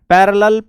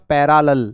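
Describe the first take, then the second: First: It is said the usual way, reduced vowel. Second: It begins with a clear, full 'para' sound.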